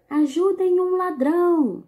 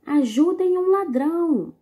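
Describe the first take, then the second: First: Loud, high call for help; shouted cry for help. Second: "Ajudem um ladrão" called out high and loud; shouted cry for help. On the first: Teacher reading a comic strip to pupils, calling loud for help. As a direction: cry out for help like a robbery victim. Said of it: "Perceberam a entonação da leitura?". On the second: Teacher rereading the comic to pupils, calling out loud. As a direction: yell for help at a robbery. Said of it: "Vou ler novamente". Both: Shown as a demonstration.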